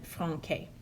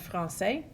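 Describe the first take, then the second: First: The C is said like a K. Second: The C is said like an S. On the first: The speaker calls it wrong. "if they didn't have the accent mark, it would be" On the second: The speaker calls it right. "with the cedilla, you have"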